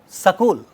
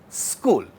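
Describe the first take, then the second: First: A short vowel is inserted between the s and k. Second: The s and k form a cluster, no vowel between. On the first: "The moment we add that a, that becomes sakul" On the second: "being pronounced without that a"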